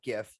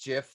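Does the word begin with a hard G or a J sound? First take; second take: hard G; J sound. First: The word begins with a hard G sound. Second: The word begins with a soft J sound. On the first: The speaker calls it wrong. "not GIF" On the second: The speaker calls it right. "It says it's pronounced GIF, Just like the peanut butter"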